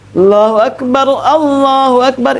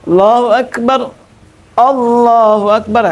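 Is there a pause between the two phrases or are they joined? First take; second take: joined; pause. First: It runs the first Akbar into the next phrase. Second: It stops after the first Akbar, ending silent.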